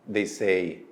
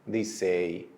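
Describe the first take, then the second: No difference in how they are said.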